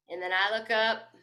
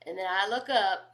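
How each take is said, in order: Both takes have the same delivery.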